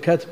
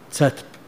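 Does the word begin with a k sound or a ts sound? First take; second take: k; ts. First: The word begins with a plain k sound. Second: The word begins with a ts-like sound. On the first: People would not recognize the term. The speaker calls it wrong. "لو جعلتها كاف يصلح؟ ما يصلح" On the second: It is the everyday dialect name people recognize. The speaker calls it right. "شو يسمونه؟"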